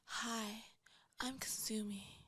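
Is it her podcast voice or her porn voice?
porn voice. It is said in her porn voice.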